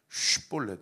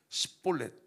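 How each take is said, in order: First: The word begins with a long sh sound. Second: The word begins with a short s sound. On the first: The speaker is from the eastern side. "영어 발음으로 S를 길게 한 그 발음으로" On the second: The speaker is from the western side. "영어로 작은 S로 발음을 하면"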